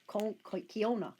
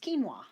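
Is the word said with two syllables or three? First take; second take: three; two. First: The word is said with three syllables. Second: The word is said with two syllables. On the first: The speaker calls it wrong. "I kept saying Kiona, but it's not" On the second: The speaker calls it right. "It's it's quinoa"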